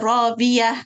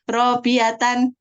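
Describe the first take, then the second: First: The word ends on a soft h sound. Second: The word ends with a full -tan ending. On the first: The reader stops at this word. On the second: The reading continues without stopping.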